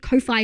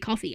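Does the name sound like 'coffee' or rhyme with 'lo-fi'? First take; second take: lo-fi; coffee. First: The name rhymes with lo-fi, ending in 'fye'. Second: The name sounds like the drink, ending in 'fee'. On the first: "We pronounce it like how I pronounce lo-fi" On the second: "it's supposed to be coffee"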